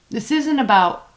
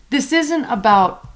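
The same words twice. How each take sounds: The two takes are said the same way.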